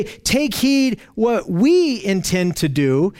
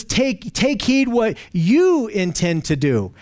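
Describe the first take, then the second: First: "we" leaned on, said slowly; slow read that weights the word "we"; wrong version, stress falls on "we". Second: "you" leaned on, said slowly; slow read that weights the word "you"; stress on you. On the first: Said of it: "Notice he doesn't say". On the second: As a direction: correct version, stress falls on "you". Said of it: "He says". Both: Shown as a demonstration.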